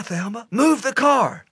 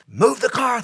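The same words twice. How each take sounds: First: Repeated panicked order. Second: Panicked order. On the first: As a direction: shout it again, hitting move. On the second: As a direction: yell at her to move the car. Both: Retold or imitated. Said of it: "Harold said".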